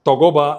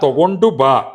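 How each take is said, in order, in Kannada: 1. ಈ ಕ್ರಿಯಾಪದ ಗುಚ್ಛವನ್ನು ಸಂಕುಚಿತ ರೂಪದಲ್ಲಿ ಹೇಳಲಾಗಿದೆ. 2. ಈ ಕ್ರಿಯಾಪದ ಗುಚ್ಛದ ಪ್ರತಿಯೊಂದು ಉಚ್ಚಾರಾಂಶವನ್ನೂ ಪೂರ್ಣವಾಗಿ ಉಚ್ಚರಿಸಲಾಗಿದೆ. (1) "ತಗೋಬಾ ಅಂದ್ರೆ ಕೊಡು, ತಗೋತೀನಿ ನೀನು" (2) "ಅಲ್ಲ"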